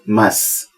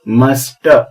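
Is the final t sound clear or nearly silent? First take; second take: nearly silent; clear. First: The final t is barely pronounced. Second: The final t is clearly pronounced. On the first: The speaker calls it right. "ऐसा लगता है जैसे टी नहीं के बराबर बोला जाता है" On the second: The speaker calls it wrong. "इसका प्रोनाउंसिएशन मस्ट ऐसा नहीं है"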